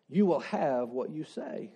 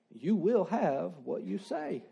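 First: Said in the usual way. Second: "You will have what you say" slowed, with "will" weighted; slow emphatic repeat. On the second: Shown as a demonstration. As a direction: lean on "will" and drag it out.

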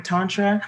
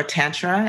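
First: Tantra said TAHN-truh; first-vowel AH. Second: Tantra said TAN-truh; Midwestern short A. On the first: Offering listeners the first option, Tantra as TAHN-truh. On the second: Offering listeners the other option, Tantra as TAN-truh. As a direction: say Tantra with the "a" of "cat". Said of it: "I tend to say Tantra". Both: Shown as a demonstration.

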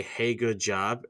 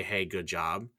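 First: A slow, drawn-out hey good job; hollow praise. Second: A soft, sincere hey good job; genuine praise. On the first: A two-faced coworker giving slow, hollow praise. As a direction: drag out Hey good job slowly, not meaning it. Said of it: "and then wait, like, twenty minutes". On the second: A genuine coworker giving soft, sincere praise. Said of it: "people that will genuinely, like, say". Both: Retold or imitated.

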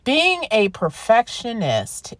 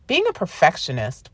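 First: "Being a perfectionist" drawn out slowly, pitched higher; deliberate emphasis. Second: Said in the usual way. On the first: Real, not acted. Podcaster introducing the topic to listeners, "Being a perfectionist" slow and emphatic. Repeats the term after questioning it.

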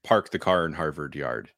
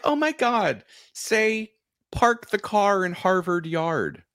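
First: Said in the usual way. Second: High, gushing imitation, slowing on the phrase; mock excited request. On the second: Strangers begging a New Englander to show his accent, high mock excitement. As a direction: imitate thrilled strangers, pitched up.

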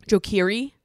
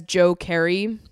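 First: "Keery" with a long ee, fixing the slip; corrected surname. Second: "Carey" with an open eh vowel, as a slip; mispronounced surname. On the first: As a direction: say "Keery" to rhyme with "leery". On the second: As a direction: say "Carey" to rhyme with "scary". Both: Real, not acted. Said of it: "sorry, Joe".

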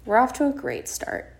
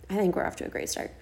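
First: Higher-pitched, hopeful announcement; upbeat reconsideration. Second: Quick, soft, half-whispered reassurance; hushed aside. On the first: Host revising the bad start for listeners, upbeat. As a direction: lift the voice on a second thought. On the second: Host reassuring herself about the start, hushed aside. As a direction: rush it under the breath. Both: Real, not acted.

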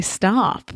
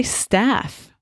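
First: "stop" is staff with the vowel of "father"; long-A staff. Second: "staff" with the vowel of "trap"; short-A staff. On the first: Shown as a demonstration. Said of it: "and I say stop". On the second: Retold or imitated. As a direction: say "staff" with a short flat A as in "cat". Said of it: "you say staff".

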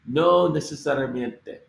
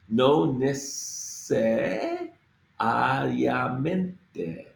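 First: Said in the usual way. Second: No necesariamente stretched very slowly, each letter sounded; very slow, every letter. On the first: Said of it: "all the letters here". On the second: Shown as a demonstration. Teacher sounding out necesariamente very slowly. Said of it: "We have to get through this whole, all the letters here".

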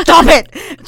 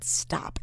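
First: Loud, high, exasperated command; mock yell. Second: Understated, softly spoken stop; quiet retort. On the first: Co-host retells typing at her meddling friend, mock yell. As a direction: blow up in comic outrage. Typed argument escalates. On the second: Retold or imitated. Co-host retells typing to her meddling friend, quiet retort. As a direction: say it small and low. Typed argument, first calm round.

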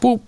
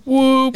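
First: Said in the usual way. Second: Excited whoop. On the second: Shown as a demonstration. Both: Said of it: "let's fucking go football day".

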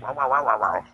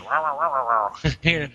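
First: Murmured wow wow imitating a muddy ghost recording; garbled recording mimic. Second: Replaying the same muddy wow wow sound; garbled recording mimic. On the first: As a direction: copy the mumbling sound of an EVP clip. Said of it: "where you hear, like". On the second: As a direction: mimic the EVP clip once more as it is replayed. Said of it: "No, listen again".

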